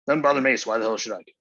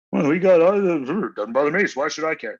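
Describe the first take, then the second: First: Said in the usual way. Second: High, loud mocking whine of a leftist. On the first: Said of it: "ninety percent of the fucking left". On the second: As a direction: sneer it out as the selfish other side. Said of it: "you guys all there on the left".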